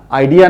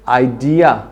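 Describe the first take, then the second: First: आइडिया the everyday Hindi way; the common flat आइडिया; wrong pronunciation. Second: आइडिया slowly with weight on ड; correct pronunciation. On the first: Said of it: "आइडिया नहीं". (आम हिंदी वाला आइडिया) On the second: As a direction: stress the ड in आइडिया. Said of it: "इसको बोलिए". (आइडिया ड पर ज़ोर देकर) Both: Shown as a demonstration.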